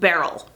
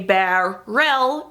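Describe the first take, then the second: First: The word is said smoothly without a break. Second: The word is broken apart between its syllables. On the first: The speaker calls it right. "it's just barrel" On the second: The speaker calls it wrong. "we don't say barrel"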